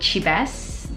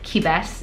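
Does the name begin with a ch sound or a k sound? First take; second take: ch; k. First: The name begins with a ch sound. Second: The name begins with a k sound. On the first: "That's just how I'm gonna pronounce it" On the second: "You can call it Kibes"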